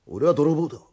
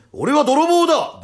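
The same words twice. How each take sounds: First: Said in the usual way. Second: Slow, high, booming announcement; big loud voice. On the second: Acted. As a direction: bellow it out to intimidate. (大声でゆっくり名乗りを上げる) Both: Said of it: "バカじゃねえか、でかい声で".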